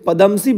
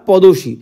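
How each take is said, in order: First: The m sound in the middle is pronounced. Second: The m sound in the middle is dropped.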